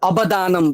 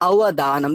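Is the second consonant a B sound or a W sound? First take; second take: B; W. First: The second consonant is a B sound. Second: The second consonant is a W-like sound. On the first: The speaker calls it wrong. "না হলে অবদানম বলতাম" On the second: The speaker calls it right. "দুটো ঠোঁটকে আমি ঠেকাচ্ছি না"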